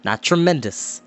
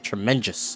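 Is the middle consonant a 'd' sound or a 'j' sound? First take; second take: d sound; j sound. First: The middle consonant sounds like a 'd'. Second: The middle consonant sounds like a 'j'. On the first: This is the standard way to say it. The speaker calls it right. "Which is the proper, which is T R E M E D O U S" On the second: This imitates how the boy in the story said it. The speaker calls it wrong. "that's how he said it. ... So T R E M E N J U S"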